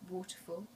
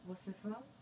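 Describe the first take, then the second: First: It is said in a native English accent. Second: It is said in a French accent. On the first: "I'll first say it in my mother tongue" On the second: "now I'll do a French accent"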